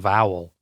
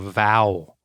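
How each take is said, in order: First: The word ends with an added L sound. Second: The word ends without an L sound. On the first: The speaker calls it wrong. "not a vowel" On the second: The speaker calls it right. "It's a vowel"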